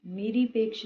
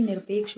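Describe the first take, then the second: First: निरपेक्ष with an added vowel after r; extra vowel. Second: Said in the usual way. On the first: Shown as a demonstration. Teacher showing students an error, extra vowel. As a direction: break निर with a vowel in निरपेक्ष. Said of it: "नहीं". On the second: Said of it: "होता है".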